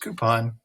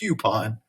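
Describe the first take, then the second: First: The first syllable has a plain oo sound. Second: The first syllable has a y sound before oo. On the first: The speaker calls it right. "but it's just coupon, two O's" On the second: The speaker calls it wrong. "always said coupon"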